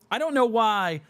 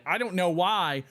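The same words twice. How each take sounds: First: Put-on whine. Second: Mild rising complaint. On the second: Acted.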